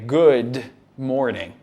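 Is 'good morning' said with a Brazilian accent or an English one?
English. It is said with a natural English pronunciation. The speaker calls it right. "é good morning"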